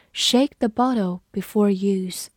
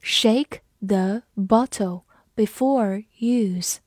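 First: Said in the usual way. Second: Slow, clear "Shake the bottle before use"; slow read-along. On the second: Shown as a demonstration. Teacher slowing the example for the class. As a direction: read it slowly for learners. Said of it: "这句话".

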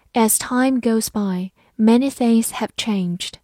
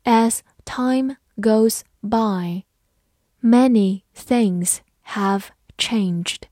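First: Said in the usual way. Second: Slow, word-by-word model reading. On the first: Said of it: "慢读一遍". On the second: Shown as a demonstration. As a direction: read it slowly, pausing after each word. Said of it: "好，慢读一遍". (慢读一遍，逐词停顿)

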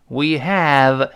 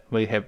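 First: "have" said fully with a clear, open vowel; unreduced "have", held clearly; full-form HAVE. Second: "have" unstressed, its vowel reduced to schwa; soft, unstressed "have" after "we"; weakened HAVE. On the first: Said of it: "没有重读". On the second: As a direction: let "have" drop soft and low. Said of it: "又弱化成呃". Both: Shown as a demonstration.

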